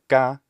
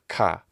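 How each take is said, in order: First: The k is said without a puff of air. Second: The k is said with a puff of air. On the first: "say ka instead of ka" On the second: "must have that aspiration"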